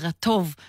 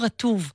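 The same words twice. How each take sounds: First: The stress is on the last syllable. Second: The stress is on the first syllable. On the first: The speaker calls it right. "ואז הילדים לומדים להגיד רטוב" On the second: The speaker calls it wrong. "ולא רטוב"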